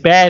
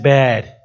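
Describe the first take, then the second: First: The vowel is short and quick. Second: The vowel is stretched out long. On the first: "it depends how long they stretch out that vowel" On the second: "it depends how long they stretch out that vowel"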